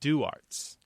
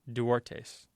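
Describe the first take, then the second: First: The name is said with an English pronunciation. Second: The name is said with a Spanish pronunciation. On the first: The family has lost the Spanish pronunciation. The speaker calls it right. "pronounced Duarts" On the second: The name keeps its original Spanish form. The speaker calls it wrong. "not pronounced Duartes"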